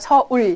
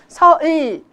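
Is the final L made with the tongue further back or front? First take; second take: back; front. First: The final l is made further back. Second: The final l is made further forward. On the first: The speaker calls it right. "혀가 뒤로 더 가는 거죠" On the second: The speaker calls it wrong. "굉장히 이상한 발음이 나거든요"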